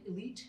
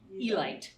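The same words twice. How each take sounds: First: It is said the usual everyday way. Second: It is said the team's own distinct way. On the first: This is how people normally say the word today. "It looks like elite, as we would say it" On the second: This is how the team members themselves said the name. "but they absolutely pronounced it Elite"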